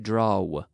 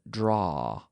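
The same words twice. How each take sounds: First: The vowel closes up toward the end. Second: The vowel stays open to the end. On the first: The speaker calls it wrong. "We don't say draw" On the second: The speaker calls it right. "So I'm leaving my mouth open"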